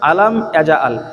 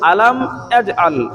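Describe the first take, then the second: First: The j sound is followed by an added vowel. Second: The j sound is closed with no vowel after. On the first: The speaker calls it wrong. "জিমের উপরে আমরা জাবার পড়ে ফেলি" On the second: The speaker calls it right. "এটি হবে"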